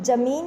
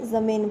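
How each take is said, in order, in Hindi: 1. पहला व्यंजन कठोर 'j' ध्वनि है। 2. पहला व्यंजन कोमल 'z' ध्वनि है। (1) "इसको हम जमीन नहीं बोलेंगे" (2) "ज़मीन बोलेंगे"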